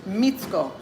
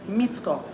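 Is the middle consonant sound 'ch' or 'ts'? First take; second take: ts; ts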